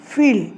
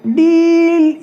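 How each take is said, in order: First: फील with a lighter 'ee', at usual pitch and volume; no push on the vowel of फील; less stressed ई. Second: डील with 'ee' held long, high and loud; long ई sound. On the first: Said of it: "इतना ज़्यादा जोर नहीं पड़ रहा है ई पर". (फील में ई पर कम ज़ोर) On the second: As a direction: stretch deeeeal on one raised note. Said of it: "यहाँ पर भी ई की आ रही है". (डील में लंबी, ऊँची ई) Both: Shown as a demonstration.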